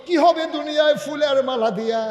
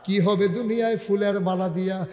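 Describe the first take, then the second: First: High, loud sung question; chanted, full-voiced melodic sermon refrain. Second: Refrain chanted at an everyday pitch; restrained sing-song sermon refrain; melodic preaching. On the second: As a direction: intone the question without raising the voice. Same refrain at usual pitch. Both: Real, not acted.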